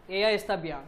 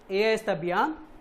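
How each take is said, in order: First: The voice falls at the end, a statement. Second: The voice rises at the end, a question.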